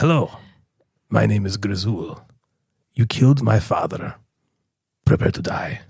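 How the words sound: It is said in a gravelly, Eastern European-like accent.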